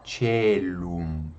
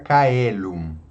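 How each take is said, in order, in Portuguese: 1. Começa com consoante suave e uma vogal E. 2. Começa com som de K e duas vogais. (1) "mas na igreja nós pronunciamos celum" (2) "na pronúncia do latim reconstituído ou restaurado ... nós estamos pronunciando o C como um K, e as vogais separadas"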